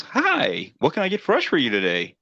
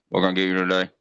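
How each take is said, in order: First: High, bright mock greeting, sing-song; cheery drive-thru voice. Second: Said in the usual way. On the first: First drive-thru voice greets customer, high fake cheer. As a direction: play the fake-friendly first voice. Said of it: "and one voice goes". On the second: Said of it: "a different voice goes".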